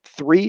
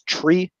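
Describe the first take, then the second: First: The word starts with a 'th' sound. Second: The word starts with a plain 't' sound.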